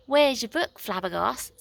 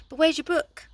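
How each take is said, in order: First: Nine's own voice, corrected; right voice for Nine. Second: Wrong voice. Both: A narrator's reading. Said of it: "No, sorry, that's the wrong one".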